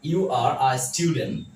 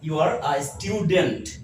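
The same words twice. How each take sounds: First: The t after n in student is dropped. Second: The t after n in student is pronounced. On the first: The speaker calls it right. "টিটাকে ... উচ্চারণ করবো না" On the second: The speaker calls it wrong. "Not"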